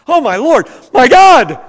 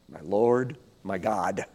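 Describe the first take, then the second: First: It is said as a surprised, exasperated exclamation. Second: It is said as a calm, direct address.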